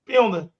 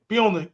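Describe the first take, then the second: No difference in how they are said.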